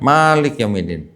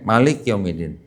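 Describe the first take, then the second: First: The first vowel of Malik is held long. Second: The first vowel of Malik is kept short. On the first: It means the ruler or master of the Day of Judgment. "yang satu panjang" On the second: It means the king of the Day of Judgment. "yang satu pendek"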